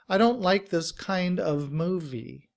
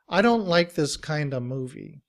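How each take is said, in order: First: The V sound at the end is pronounced. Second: The V sound is dropped, leaving a schwa. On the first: "we have the letter V to make of" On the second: "in reduced form, we don't pronounce the V at the end of of"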